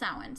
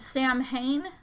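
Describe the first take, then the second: First: The sounds differ from a letter-by-letter reading. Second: Each letter is sounded as it is read. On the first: The speaker calls it right. "it's actually pronounced Samhain" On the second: The speaker calls it wrong. "it's read Samhain"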